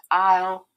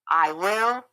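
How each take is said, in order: First: The words merge into one short syllable. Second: Both words are said in full, separately. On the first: "you're going to say it in contractions" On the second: "I will always say"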